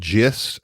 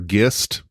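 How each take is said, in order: First: It begins with a soft J-like sound. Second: It begins with a hard G sound. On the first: "as some say" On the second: "It might be a hard G"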